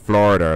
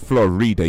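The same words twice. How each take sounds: First: The middle vowel is barely pronounced. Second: The middle vowel is clearly pronounced. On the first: The speaker calls it right. "You say Florida like that. You don't really pronounce the I too too much" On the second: The speaker calls it wrong. "You don't say Florida"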